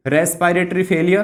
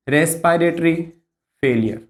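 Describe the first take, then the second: First: Said in the usual way. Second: Lower, measured repeat with a pause between words. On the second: Shown as a demonstration. Teacher repeating the key complication for students, measured dictation. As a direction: say "respiratory", pause, then let "failure" drop low.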